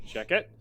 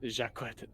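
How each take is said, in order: First: "Jacquet" said like "shacket"; mispronounced name. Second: "Jacquet" said as "zhak-WET"; corrected name. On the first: Player fumbles a companion's name, "Jacquet" said as "shacket". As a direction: say "Jacquet" as SHACK-et, without the w sound. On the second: Player corrects a companion's name, "Jacquet" said as "zhak-WET". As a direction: say "Jacquet" with soft zh and a kw. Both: Real, not acted.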